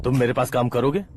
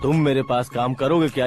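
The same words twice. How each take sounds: First: "करोगे" lifted as a question; tentative offer. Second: "करोगे क्या" falling, pressing; insistent repeated offer. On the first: Minister offering a job, tentative rise on "करोगे". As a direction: float the offer, rising on "करोगे". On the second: Minister pushing for a reply, insistent fall on "करोगे क्या". जल्दी बोलो. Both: Acted.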